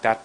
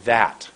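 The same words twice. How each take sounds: First: Said in the usual way. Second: "that" with a long held vowel; a deliberate, drawn-out "that"; lengthened word. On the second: Shown as a demonstration. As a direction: set the tongue, then stretch "that". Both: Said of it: "Not that, but".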